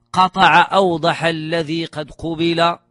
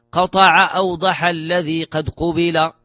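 No difference in how they are said.

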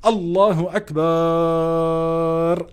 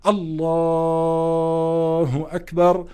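First: The word akbar is stretched out long. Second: The word Allah is stretched out long. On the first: The speaker calls it wrong. "لا يجوز انه واحد يقول الله اكبر" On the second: The speaker calls it right. "وانت وعم بتمد لفظ الجلالة"

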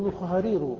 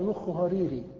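First: The last word ends with a u vowel. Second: The last word ends with an i vowel. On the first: The word is marked as nominative predicate. The speaker calls it right. "قال الصواب تقول مخها رير" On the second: The word is marked as genitive. The speaker calls it wrong. "قال مخها ريري فجر"

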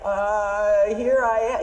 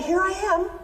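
First: It is said hesitantly, sounding scared. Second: It is said in a plain, calm way.

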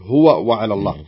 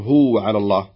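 First: The two w sounds are pronounced separately. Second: The two w sounds merge into one. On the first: The speaker calls it right. "تنطقها بهذا الشكل" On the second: The speaker calls it wrong. "ما تقول"

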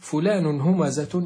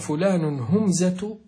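First: The m is followed by a short a vowel. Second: The m has no vowel after it. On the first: The person often mocks others. "بفتح العين فيه، فتح الحرف الأوسط وهو الميم" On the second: Other people mock the person. "لكن إن سكناها كان هو من يفعل به ذلك"

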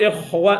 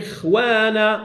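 First: The kha is heavy, with full emphatic quality. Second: The kha is light, matching the preceding kasra. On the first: The speaker calls it wrong. "لا نقول إخوانا" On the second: The speaker calls it right. "لما أقول إخوانا فيش في مستوى الكسر"

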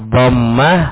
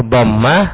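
The two takes are said the same way.

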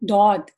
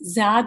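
First: The letter name begins with a d-like sound. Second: The letter name begins with a z-like sound. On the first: The speaker calls it right. "تو یہ دود ہے" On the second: The speaker calls it wrong. "زاد نہیں"

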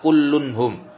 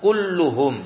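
First: An n sound comes between kullu and hum. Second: Kullu runs straight into hum with no n. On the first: The speaker calls it wrong. "bukan kullunhum" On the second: The speaker calls it right. "yang betul kulluhum"

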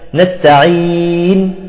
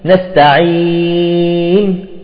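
First: The long vowel is held for four counts. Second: The long vowel is held for six counts. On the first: "وأربعة" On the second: "وستة"

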